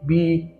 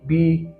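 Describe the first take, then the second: The two takes are said the same way.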